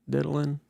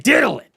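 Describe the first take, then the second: First: The word is said quietly and hesitantly. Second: The word is said loudly and projected. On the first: The speaker lacks confidence. The speaker calls it wrong. "like, like, you know, like diddling" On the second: The speaker is confident. The speaker calls it right. "Or you can say diddling"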